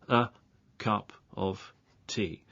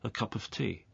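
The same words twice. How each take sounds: First: It is said slowly, words kept apart. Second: It is said at normal speed, words joined.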